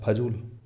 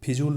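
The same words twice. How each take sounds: First: फजूल opening on pha; correct pronunciation. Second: फिजूल opening on phi; mispronunciation demo. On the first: Teacher repeats the correction, फजूल pronounced pha-jool. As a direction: keep a short a in फजूल. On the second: Teacher repeats the mistake, फिजूल mispronounced as phi-jool. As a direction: put i in the start of फिजूल. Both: Shown as a demonstration. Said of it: "फिजूल नहीं होता है".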